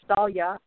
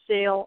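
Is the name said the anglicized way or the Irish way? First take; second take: Irish; anglicized. First: The name is said with Irish pronunciation. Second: The name is said as read in English. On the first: "Irish pronunciation is Salia" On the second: "the way it reads kind of in English"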